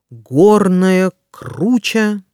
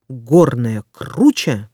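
First: It is said slowly and carefully. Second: It is said quickly. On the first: "Сначала я прочитаю скороговорку медленно" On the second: "А затем я проговорю скороговорку быстро"

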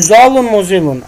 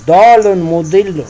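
First: The words begin with a z sound. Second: The words begin with a d sound. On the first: The speaker calls it wrong. "Не Золун Музилун" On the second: The speaker calls it right. "а Долун Мудилун"

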